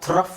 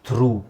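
First: The word ends in a short vowel and an f. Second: The word ends in a long oo vowel. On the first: The speaker calls it wrong. "ಹಾಗಾದರೆ ಅದನ್ನು ಥ್ರಫ್ ಅಂತ ಹೇಳೋಕ್ಕಾಗುತ್ತಾ? No" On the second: The speaker calls it right. "ಅಲ್ಲಿ ಏನು ಹೇಳಬೇಕು? ಥ್ರೂ"

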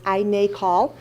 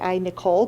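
First: The name ends not sounding like Nicole. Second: The name ends sounding like Nicole. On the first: The speaker calls it right. "but it's I NACOL" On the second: The speaker calls it wrong. "I was pronouncing it wrong. I was calling it I Nicole"

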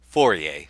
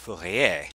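First: The name is said with an English pronunciation. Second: The name is said with a French pronunciation. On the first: "English speakers have a hard time with this, and so we often pronounce this" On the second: "should probably be pronounced Fourier"

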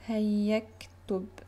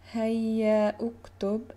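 First: The two words are joined, dropping the middle vowel. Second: The two words are said separately with their own vowel. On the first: The speaker calls it right. "and then move on to this letter" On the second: The speaker calls it wrong. "instead of saying hayya uktub"

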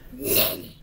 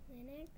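First: It falls at the end with authority. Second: It rises at the end like a question.

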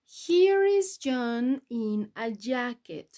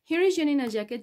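First: It is said slowly and carefully. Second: It is said quickly and briskly. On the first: "primero despacito" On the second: "Un poquito más rápido"

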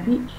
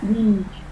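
First: The vowel is short and clipped. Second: The vowel is drawn out and long. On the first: The speaker calls it wrong. "Nó không phải là beach" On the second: The speaker calls it right. "mình phải kéo ra này, nó ra là âm bị dài"

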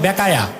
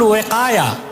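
First: The word begins with a b sound. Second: The word begins with a w sound. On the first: The speaker calls it wrong. "এই নামে তো কিতাব নাই" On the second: The speaker calls it right. "কিতাব আছে শারহুল ওয়াকায়া"

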